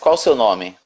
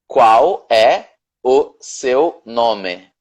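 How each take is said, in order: First: The question is said fast with words run together. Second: The question is said slowly with every word clear.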